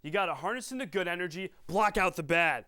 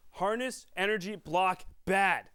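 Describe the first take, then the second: First: Lightly voiced movie coach. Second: Mock coach chant of "Harness, energy, block, bad"; punched key words. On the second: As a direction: bark the words out one by one like a coach. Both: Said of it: "that Happy Gilmore quote".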